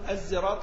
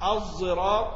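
First: The consonant is a plain, light z sound. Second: The consonant is a heavy, emphatic z-like sound. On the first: The speaker calls it wrong. "ما تقول الزراط" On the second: The speaker calls it right. "صاد مشمى صوت الزاي"

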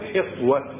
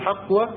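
First: The first vowel is a front 'i'. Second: The first vowel is an open 'a'. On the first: "وبكسرها أيضا" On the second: "بفتح الحاء"

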